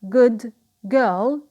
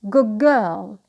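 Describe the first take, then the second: First: The word good ends with a d sound. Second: The word good ends with a g sound.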